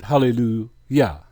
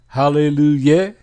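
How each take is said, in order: First: Hallelujah ending in an open "yah"; correct "yah" ending. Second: Hallelujah ending in a questioning "yeh"; mispronounced ending. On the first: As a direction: say Hallelujah as "ha-le-lu-YAH", falling at the end. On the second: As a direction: say Hallelujah as "ha-le-lu-YEH", rising at the end. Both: Shown as a demonstration. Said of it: "is there a Yeh in Yah".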